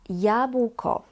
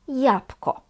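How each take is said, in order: First: The word is pronounced fully and carefully. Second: The word is pronounced in a reduced, casual way.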